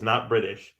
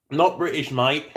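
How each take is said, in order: First: Said in the usual way. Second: Hammed-up British mate-speak; mock British accent. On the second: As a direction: put on a jokey British voice. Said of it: "If I were British".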